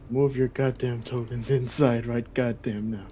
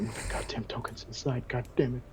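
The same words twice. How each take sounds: First: "Move your goddamn tokens inside right goddamn now" spaced out, every word hit slowly; slow, deliberate, fed-up command; slow emphatic order. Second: Whispered, exasperated aside; whispered grumble about the tokens; muttered under breath. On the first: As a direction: spell it out slowly, exasperated. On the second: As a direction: hiss it under your breath. GM hurrying players, under breath. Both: Real, not acted.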